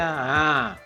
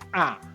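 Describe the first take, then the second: First: The sound is fully released without pressure. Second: The sound is pressed hard like a glottal stop. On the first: "Tapi kalau dilepas jadi" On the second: "kalau terlalu ditekan jadi"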